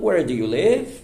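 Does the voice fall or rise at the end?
rises. The voice rises at the end. The speaker calls it wrong. "E não"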